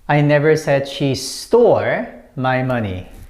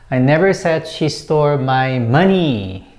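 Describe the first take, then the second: First: The word stole carries the stress. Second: The word money carries the stress. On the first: She may have taken it some other way. "It means she may have borrowed from me" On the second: She took something other than money. "I didn't say that it was money"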